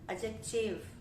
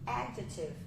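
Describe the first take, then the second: First: The stress is shifted following Portuguese habits. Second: The stress falls in the usual English place. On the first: The speaker calls it wrong. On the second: The speaker calls it right.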